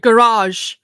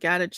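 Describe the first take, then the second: First: It is said with an American pronunciation. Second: It is said with a British pronunciation.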